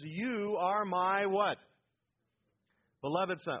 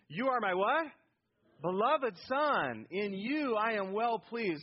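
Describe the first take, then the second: First: Said in the usual way. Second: Loud, higher, drawn-out declaration; emphatic affirmation. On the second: Shown as a demonstration. Preacher showing congregation how to say the verse, emphatic affirmation. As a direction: proclaim it slowly with full conviction. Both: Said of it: "Oh, you say that like, you know".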